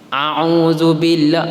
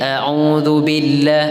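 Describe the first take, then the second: First: Both throat sounds are deep ain sounds. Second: A glottal stop first, then an ain. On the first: The speaker calls it wrong. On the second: The speaker calls it right.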